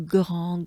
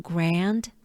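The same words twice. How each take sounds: First: "grand" with French r, nasal vowel, silent d. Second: "grand" with English r, short a, sounded d. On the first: Teacher comparing it with English, French grand. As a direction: say "grand" as grahn with a throaty r. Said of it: "But it's grand". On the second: Teacher showing the familiar English word, English grand. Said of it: "Just like". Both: Shown as a demonstration.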